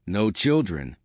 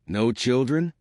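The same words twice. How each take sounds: First: Put-on "No children." answered with a falling tune on children; flat answer. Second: Put-on "No children?" asked with a rising tune on children; a light puzzled question; questioning rise. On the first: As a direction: state it, letting children drop. Pengley answers Poirot. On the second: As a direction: ask it, lifting at the end of children. Poirot asks, she answers. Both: A narrator's reading.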